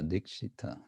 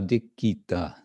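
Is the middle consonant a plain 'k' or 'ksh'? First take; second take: ksh; plain k. First: The middle consonant is a ksh sound. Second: The middle consonant is a plain k sound. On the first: This is not the Bengali way of saying the word. The speaker calls it wrong. "not Dikshita Dikshita" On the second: This is the Bengali way of saying the word. The speaker calls it right. "I guess Bangla would be Dikita Dikita"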